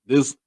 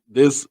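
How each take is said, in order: Both takes have the same delivery.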